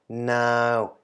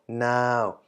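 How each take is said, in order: First: The syllable is said with a mid tone. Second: The syllable is said with a mid tone.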